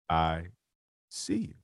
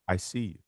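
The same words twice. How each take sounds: First: It is said slowly and deliberately. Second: It is said at a normal speed.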